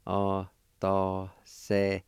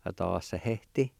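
First: Atasehete said slowly, syllable by syllable; teacher modelling Atasehete slowly; slow, careful. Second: Said in the usual way. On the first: Shown as a demonstration. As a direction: draw out Atasehete for the learner. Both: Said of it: "it's pronounced like this".

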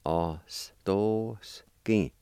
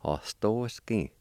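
First: Ostoski broken into slow, separated syllables; syllable-by-syllable demo. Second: Said in the usual way. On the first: Shown as a demonstration. Teacher showing learners the word for grinder, Ostoski syllable by syllable. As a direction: draw out each part of Ostoski with gaps. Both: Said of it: "it's pronounced like this".

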